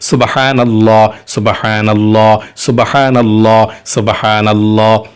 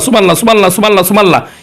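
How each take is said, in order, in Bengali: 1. বাক্যটি ধীরে ও যত্ন সহকারে বারবার বলা হচ্ছে। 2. বাক্যটি দ্রুত ও তাড়াহুড়ো করে বারবার বলা হচ্ছে। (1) "একটু ধীরে ধীরে ... মনোযোগ সহকারে পড়ুন। এভাবে" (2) "শুধু এভাবে বললে হবে না। অনেকে বলে"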